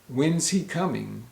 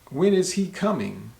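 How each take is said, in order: First: When and is are contracted into one syllable. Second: When and is are said as two words. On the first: "we'll a lot of times say" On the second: "example question for when is"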